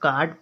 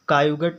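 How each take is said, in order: First: The vowel is one long aa sound. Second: The vowel is split into separate a and u sounds. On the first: The speaker calls it right. "अब इसको काट पढ़ेंगे" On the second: The speaker calls it wrong. "बहुत लोग क्या पढ़ते हैं कायुगट पढ़ लेंगे"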